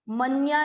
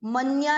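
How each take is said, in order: First: The n runs straight into the ya. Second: The same.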